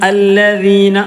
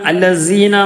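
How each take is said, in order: First: The middle consonant is a soft 'th' sound. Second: The middle consonant is a hissing 's' sound. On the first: The speaker calls it right. "നാവിന്റെ തലഭാഗം മേലെ മുൻപല്ലിന്റെ താഴ്ഭാഗത്ത് തട്ടുന്ന" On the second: The speaker calls it wrong. "എന്നല്ല"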